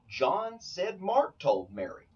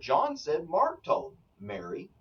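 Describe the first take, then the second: First: The sentence is said without any internal pause. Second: There is a pause before the final word Mary. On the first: John reported that Mark told Mary. "John told me that Mark told Mary" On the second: The speaker is addressing Mary directly. "I'm speaking to Mary"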